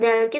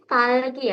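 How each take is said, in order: First: The word begins with a soft D-like sound. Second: The word begins with a tense T-like sound. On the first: The speaker calls it wrong. "bukan dalgi" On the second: The speaker calls it right. "tapi talgi ya. Ingat dia double digit berarti lebih ke T"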